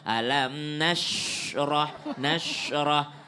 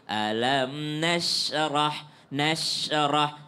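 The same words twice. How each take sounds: First: The sh sound is made with rounded lips. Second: The sh sound is made without rounded lips. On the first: The speaker calls it wrong. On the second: The speaker calls it right. "sya itu ndak perlu bibir maju"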